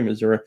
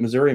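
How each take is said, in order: First: Missouri pronounced "muh-ZOOR-uh"; Missouri ending in "uh". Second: Missouri pronounced "muh-ZOOR-ee"; Missouri ending in "ee". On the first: Streamer checking which version it was, Missouri ending in "uh". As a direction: finish Missouri on "uh". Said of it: "Do you say Missouri or you". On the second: Streamer checking which version it was, Missouri ending in "ee". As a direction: finish Missouri on "ee". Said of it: "Was it Missouri?". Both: Shown as a demonstration.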